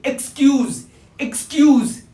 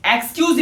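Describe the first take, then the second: First: "एक्सक्यूज" as ik-SKYOOZ; light ik, long skyooz in "एक्सक्यूज"; correct pronunciation. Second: "एक्सक्यूज" opening with a wide eks; wrong pronunciation. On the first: Teacher corrects learners, ik-skyooz for "एक्सक्यूज". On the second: Teacher rejects it for learners, eks-opening "एक्सक्यूज". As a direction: start "एक्सक्यूज" on a full e. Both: Shown as a demonstration. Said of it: "एक्सक्यूज नहीं".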